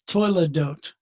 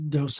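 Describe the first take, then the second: First: The word ends with a t sound. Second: The word ends with an s sound. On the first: "but Toiledot"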